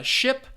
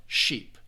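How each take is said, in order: First: Ship with a short, lax I. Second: Sheep with a long, tense E. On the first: Teacher demonstrating ship to students, short I vowel. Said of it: "you have that short I sound". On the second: Teacher demonstrating sheep to students, long E vowel. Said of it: "versus the long E sound". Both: Shown as a demonstration.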